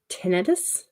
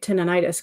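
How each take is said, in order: First: The word is said with fewer sounds. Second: The word is said with extra sounds. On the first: The speaker calls it right. "many, many letters less than than I always pronounce" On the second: The speaker calls it wrong. "I always say it "tinnitus" 'cause that's how I learned it"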